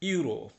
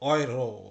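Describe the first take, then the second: First: The word begins with a 'yoo' sound. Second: The word begins with an 'oy' sound. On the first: The speaker calls it wrong. "Not ইউরো" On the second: The speaker calls it right. "এটার উচ্চারণ কিন্তু ওই যে ডয়েচের মতো বা নয়ের মতো"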